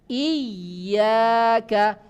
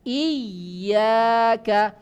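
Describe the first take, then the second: First: The y sound is held long and doubled. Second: The y sound is held long and doubled.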